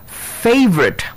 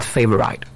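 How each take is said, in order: First: "favorite" with a high start, fay-vrit; correct favorite. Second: "favorite" with a long -rite ending; wrong favorite. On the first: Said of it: "pronounced as". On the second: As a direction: drag out "favorite" as fay-vuh-right. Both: Shown as a demonstration.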